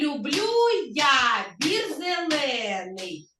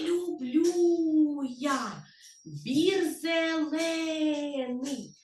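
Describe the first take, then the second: First: It is spoken at normal speed and volume. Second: It is spoken very quietly.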